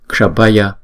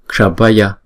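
Both takes have the same delivery.

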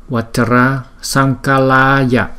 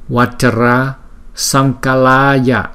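The two takes are said the same way.

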